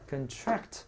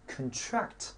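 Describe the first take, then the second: No difference in how they are said.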